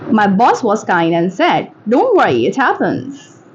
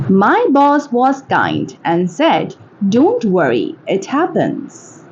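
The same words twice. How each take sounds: First: Said in the usual way. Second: Slow, careful enunciation; slow model reading. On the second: Shown as a demonstration. Teacher models a line for English shadowing, slowly. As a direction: read it slowly, word by word.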